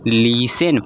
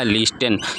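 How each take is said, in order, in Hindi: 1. t की आवाज़ पूरी तरह छोड़ दी जाती है। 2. t की आवाज़ बीच में बोली जाती है। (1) "हमारा सही प्रोनाउंसिएशन क्या होगा" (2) "जो कि गलत प्रोनाउंसिएशन है"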